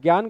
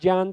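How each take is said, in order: First: The word begins with a g sound. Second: The word begins with a j sound. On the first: The speaker calls it wrong. "ज्ञान गलत होता है" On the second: The speaker calls it right. "ज्ञान सही होता है"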